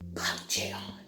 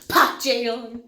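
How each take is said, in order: First: The name is said plainly, without extra force. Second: The name is said forcefully, with passion.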